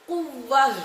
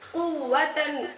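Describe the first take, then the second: First: The word ends softly with an 'h' sound. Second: The word ends with a 't' and 'n' sound.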